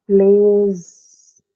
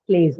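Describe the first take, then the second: First: PLAYS loud and stretched into one long syllable; drawn-out word. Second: Said in the usual way. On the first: Shown as a demonstration. Teacher showing students a single syllable, PLAYS drawn out. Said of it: "just one syllable". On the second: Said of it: "plays is correct".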